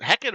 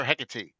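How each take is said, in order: First: Hecate said as HEK-it; two-syllable Hecate. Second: Hecate said as HEK-uh-tee; three-syllable Hecate. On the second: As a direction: sound the final e of Hecate as "tee". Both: Shown as a demonstration. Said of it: "or is it Hecate or Hecate?".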